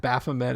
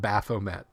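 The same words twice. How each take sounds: First: Baphomet said "baf-oh-MAY", silent T; French pronunciation. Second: Baphomet said "baf-oh-MET", T sounded; anglicized pronunciation. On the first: Host showing the proper French name, Baphomet as "baf-oh-may". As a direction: end Baphomet on an open "may", no final T. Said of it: "Baphomet is French". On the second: Host showing the rejected version, Baphomet as "baf-oh-met". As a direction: end Baphomet on "met" with the final T. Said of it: "not Baphomet". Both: Shown as a demonstration.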